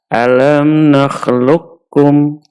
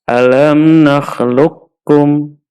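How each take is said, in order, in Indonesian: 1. Q menyatu dengan bunyi K yang ditasydid. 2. Q menyatu dengan bunyi K yang ditasydid.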